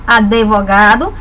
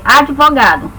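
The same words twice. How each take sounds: First: Advogado said as a-de-vogado with an extra vowel; wrong advogado. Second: Advogado with d and v together, no added vowel; correct advogado. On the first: Retold or imitated. Teacher imitates a common mispronunciation of advogado. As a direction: slip an "e" between d and v in advogado. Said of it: "algumas pessoas pronunciam advogado". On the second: Shown as a demonstration. Teacher corrects the error, stressing the proper advogado. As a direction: say advogado cleanly, d straight into v. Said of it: "Não, ela é advogado".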